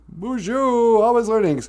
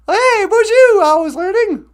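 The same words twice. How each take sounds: First: Said in the usual way. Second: Very high, louder cheerful hello; squeaky puppet greeting. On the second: Pretend. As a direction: greet like a tiny excited puppet.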